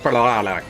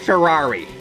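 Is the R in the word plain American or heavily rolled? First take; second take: rolled; American. First: The word is said with an overdone, rolled R. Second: The word is said with a plain American R. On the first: The speaker calls it wrong. "Don't do the Ferrari. I feel like that you just that's not that's not an R" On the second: The speaker calls it right. "Just say Ferrari. They they'll be fine with with you having an American accent"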